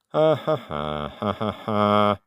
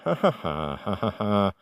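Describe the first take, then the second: First: The sounds are said slowly. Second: The sounds are said fast.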